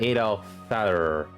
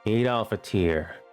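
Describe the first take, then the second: First: The last word sounds like English 'fatter'. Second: The last word sounds like 'fatir'. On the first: The speaker calls it wrong. "I don't know how to pronounce that" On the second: The speaker calls it right. "it's pronounced Aid Aid Al Fatir"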